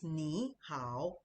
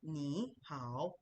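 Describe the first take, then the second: First: The syllables have a down-then-up tone. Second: The same.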